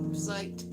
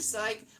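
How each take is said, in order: First: It sounds anxious and deflated. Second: It sounds thrilled and upbeat. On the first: The speaker is worried about it. "More like, ah, psyched. Very, very, very bad" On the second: The speaker is happily looking forward to it. "Not wow, whoa, whoa"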